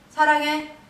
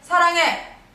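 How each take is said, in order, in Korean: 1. 보통 세기로 말합니다. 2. 크고 강한 힘으로 말합니다. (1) "삼 단계" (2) "사 단계"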